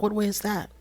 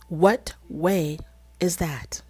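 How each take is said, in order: First: Said in the usual way. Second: WHAT, WAY, "is that" set apart by pauses; deliberate word-by-word "What... way... is that?"; slow, pointed repeat. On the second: Acted. Putting herself in Kim's place to question his love, slow and pointed.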